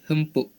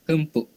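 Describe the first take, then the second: The two takes are said the same way.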